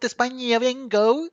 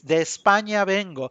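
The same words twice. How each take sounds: First: It is said with a foreign, American-sounding accent. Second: It is said with a native Spanish accent. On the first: The speaker calls it wrong. "it sounds horrible because it's not de España vengo" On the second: The speaker calls it right. "it's de España vengo"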